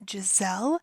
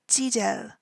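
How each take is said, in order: First: The middle consonant is a z sound. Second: The middle consonant is a j-like sound. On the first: This is how English speakers say the name. "in English, we say her stage name as Giselle" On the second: This is how Korean speakers say the name. "they don't have the z sound... So almost kind of a J"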